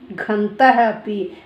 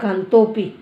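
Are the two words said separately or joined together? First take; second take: separately; joined. First: The two words are said separately. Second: The two words are joined into one.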